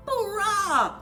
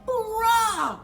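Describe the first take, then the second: No difference in how they are said.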